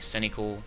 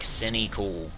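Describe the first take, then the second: First: The sounds of the word blend together. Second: The sounds of the word are kept distinct. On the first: "it blends together and it sounds like the other word" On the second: "You don't have to say it like cynical"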